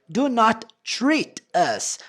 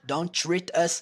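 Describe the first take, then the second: First: Both words, do and not, are said separately. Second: The two words merge into one short syllable.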